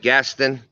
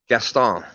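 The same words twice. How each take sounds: First: The name is said with a plain English pronunciation. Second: The name is said with a French pronunciation.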